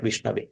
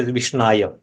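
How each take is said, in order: First: Vishnave ending in -ave, the correct form. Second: Vishnaya ending in -aya, the wrong form; incorrect form. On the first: Teacher shows the learned man's right form, ending in -ave. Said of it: "He may correctly say that Vishnave". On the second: Teacher shows the unlearned man's wrong form, ending in -aya. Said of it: "grammatically incorrectly say Vishnaya". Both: Shown as a demonstration.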